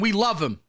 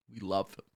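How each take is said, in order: First: Said in the usual way. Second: Low, hushed echo of the praise; subdued repeat. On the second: Acted. Host repeats his praise of his idol, low and quiet. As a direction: drop it right down, almost to yourself.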